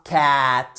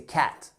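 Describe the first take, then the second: First: CAT with the A stretched out, loud; wrong long A. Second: CAT with a short, quick A. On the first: Teacher showing learners how not to say cat, long vowel. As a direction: drag out the vowel in CAT as a mistake. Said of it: "c'est pas cat". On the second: Teacher correcting learners on cat, short vowel. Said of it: "C'est un son court". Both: Shown as a demonstration.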